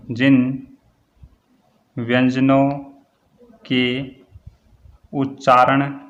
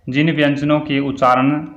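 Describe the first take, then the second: First: Word by word with long pauses; slow dictation. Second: Said in the usual way. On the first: Shown as a demonstration. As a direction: dictate it one word at a time for note-takers. Dictating definition for students to write.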